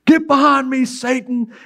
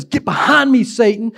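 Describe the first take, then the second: First: A higher, forceful rebuke; sharp rebuke. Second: A higher, emphatic rebuke; exclaimed rebuke. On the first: Jesus rebuking Peter in front of the group, sharp rebuke. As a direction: snap it out so the whole group hears. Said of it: "Jesus turns where the whole group is and says". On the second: Preacher re-reading Jesus' rebuke with an exclamation. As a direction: land the exclamation point. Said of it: "There's an exclamation point there in the text". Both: Retold or imitated.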